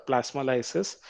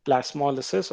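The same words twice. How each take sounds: First: "plasmolysis" as plas-mo-LYE-sis; "plasmolysis" with a long i after the l; second pronunciation. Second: "plasmolysis" as plas-MOL-ih-sis; "plasmolysis" with a short i after the l; first pronunciation. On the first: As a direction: say "plasmolysis" with "lye" before the last syllable. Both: Shown as a demonstration. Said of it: "we call it as".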